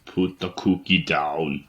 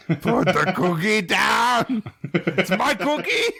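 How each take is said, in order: First: Cookie Monster voice. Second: High, slow monster growl; Cookie Monster voice. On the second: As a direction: bellow it like a greedy monster. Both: Retold or imitated. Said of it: "that Cookie Monster voice".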